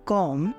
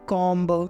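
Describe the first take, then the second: First: The word ends on m with no b sound. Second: The word ends with an audible b sound. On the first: The speaker calls it right. "इसको हम बोलते हैं कॉम" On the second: The speaker calls it wrong. "ना कि कॉम्ब ... ऐसे इसको नहीं बोलना है"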